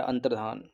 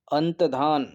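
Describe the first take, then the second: First: अंतर्धान with a clear र before धान; correct form. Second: अंतधान said without the r, as अंत-धान; wrong spelling read out. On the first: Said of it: "ऐसे लिखते हैं अंतर्धान". (अंतर्धान, र साफ़ बोलते हुए) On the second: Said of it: "अंतधान गलत लिखा है". (अंतधान बिना र के, गलत रूप में) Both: Shown as a demonstration.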